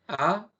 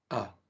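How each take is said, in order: First: The vowel is high-pitched and bright. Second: The vowel is deep with an open throat. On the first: "Una es aguda, la que nosotros hacemos normal" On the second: "esta con acento es grave porque jalamos aire"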